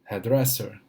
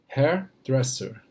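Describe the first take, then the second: First: The word is said at a natural pace, joined. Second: The word is said slowly and carefully. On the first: "como a palavra é toda junta" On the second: "eu falei um pouquinho devagar"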